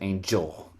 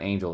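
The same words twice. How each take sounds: First: The G is strong and clearly enunciated. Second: The G is soft and lightly articulated. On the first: The speaker calls it right. "even the G in angel's really" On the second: The speaker calls it wrong. "it's not angel"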